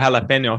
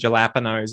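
First: The word is given its Spanish pronunciation. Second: The word is read out as English spelling. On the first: The speaker calls it right. "saying it with the Spanish pronunciation" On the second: The speaker calls it wrong. "just read it phonetically"

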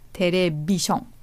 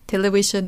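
First: It is said with Japanese-style syllables. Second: It is said with English pronunciation. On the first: "things need to be made easier to pronounce for Japanese people" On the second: "it's not television"

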